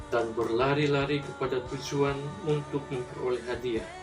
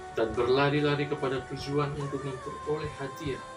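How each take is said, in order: The two takes are said the same way.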